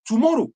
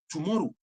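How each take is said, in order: First: Tomorrow, warned out loud. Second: Tomorrow, echoed quietly. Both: Real, not acted.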